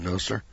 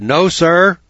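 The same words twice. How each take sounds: First: Said in the usual way. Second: Much louder and higher, nearly shouted; loud, high No, sir; raised voice. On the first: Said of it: "so I raised my voice". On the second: Retold or imitated. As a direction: bark it out so the judge hears. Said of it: "so I raised my voice and I said".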